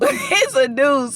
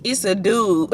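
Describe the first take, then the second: First: Laughing. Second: Said in the usual way. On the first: Real, not acted. Laughs retelling the punchline.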